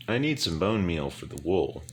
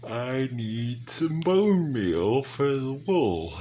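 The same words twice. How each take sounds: First: Said in the usual way. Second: Words stretched through a big yawn, higher and louder. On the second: Real, not acted. Tired gamer yawning mid-sentence while crafting, slow. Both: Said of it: "Big yawn".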